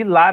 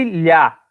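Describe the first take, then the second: First: Lá with a clear plain l; lá the right way, a normal l; plain l sound. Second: Lhá with a palatal lh sound as in Spanish ll; lhá the wrong way, like Spanish ll; Spanish-style ll sound. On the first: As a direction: say lá with the tongue tip behind the teeth. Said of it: "Tem som de lá mesmo". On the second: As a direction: say lhá with the tongue flat on the palate. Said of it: "não tem som de lhá". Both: Shown as a demonstration.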